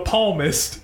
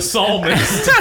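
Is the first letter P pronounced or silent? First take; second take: pronounced; silent. First: The word starts with a pronounced P sound. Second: The word starts with an S sound, P silent. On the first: The speaker calls it wrong. "he said to quote the palmist instead of the psalmist. He said you don't pronounce the P" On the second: The speaker calls it right. "you don't pronounce the P"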